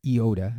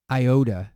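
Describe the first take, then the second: First: "iota" as ee-OH-da; corrected Greek letter name; Greek pronunciation. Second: "iota" as eye-OH-da; English-style "iota" with eye; anglicized letter name; English pronunciation. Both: Shown as a demonstration. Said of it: "shouldn't use the English pronunciation".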